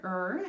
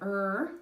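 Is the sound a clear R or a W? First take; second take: R; R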